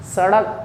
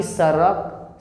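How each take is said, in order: First: सड़क with a flicked retroflex ड़; सड़क, ड़ as a half-strength ड; retroflex flap ड़. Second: सड़क wrongly said as सरक, plain tapped र; thin, light र in सरक; mispronounced with र. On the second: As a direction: say सरक with no retroflex flick. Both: Shown as a demonstration. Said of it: "ना कि सरक".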